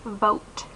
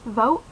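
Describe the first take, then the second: First: The final T sound is clearly pronounced. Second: The final T sound is left off. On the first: This is how other people say it. "other people will say vote" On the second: This is the speaker's own local way of talking. "I just have inflection in my voice that implies the sound, but I don't actually say it"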